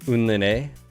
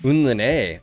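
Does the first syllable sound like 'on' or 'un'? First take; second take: un; un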